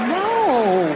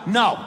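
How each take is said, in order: First: It is a playful, teasing refusal. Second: It is a firm, serious refusal.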